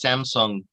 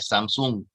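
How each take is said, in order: First: It is said the American way. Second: It is said the Thai way. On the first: "In America, you buy a Samsung telephone" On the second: "In Thailand, you buy a Samsung"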